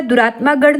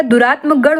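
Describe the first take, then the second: First: दुरात्मा with long final aa; wrong form. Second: Said in the usual way. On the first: Shown as a demonstration. Teacher rejects a misspelling, long-ended दुरात्मा. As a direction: hold the -maa in दुरात्मा गढ़. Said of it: "दुरात्मा गढ़ नहीं". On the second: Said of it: "दुरात्म गढ़ होता है".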